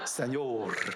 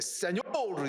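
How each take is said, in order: First: It is said weakly, without force. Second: It is said forcefully, pushed from the belly. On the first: The speaker calls it wrong. "정말 이렇게 하시는 거예요" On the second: The speaker calls it right. "배에다 힘을 주고 이렇게"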